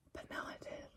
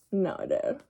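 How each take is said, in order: First: Soft unvoiced whisper. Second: Said in the usual way. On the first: Real, not acted. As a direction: breathe it out like a secret. Whispered then repeated aloud.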